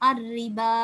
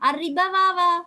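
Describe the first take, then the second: First: The word ends in a long vowel, no w. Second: A w sound is pronounced after the b. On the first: The speaker calls it right. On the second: The speaker calls it wrong.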